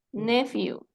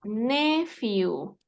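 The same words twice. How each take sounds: First: Nephew as one shorter word, NE-few; pronunciation demo. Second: Nephew drawn out, NE-few; slow pronunciation demo. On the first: Teacher repeating the word for a student, nephew said compactly. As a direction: say nephew whole, stressed on NE. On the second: Teacher showing a student the English word, nephew said slowly. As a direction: stretch out both syllables of nephew. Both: Shown as a demonstration. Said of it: "Se pronuncia".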